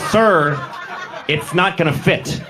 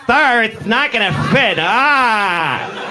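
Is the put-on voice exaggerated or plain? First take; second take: plain; exaggerated. First: It is said in a plain, mild voice. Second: It is said in an exaggerated, flamboyant voice.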